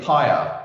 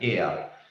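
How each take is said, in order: First: It is said with an English pronunciation. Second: It is said with a Greek pronunciation. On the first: "we're all West, we're, we're pronouncing it pyre" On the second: "the actual Greek pronunciation, my wife is Greek, you know, she'd be saying pyr"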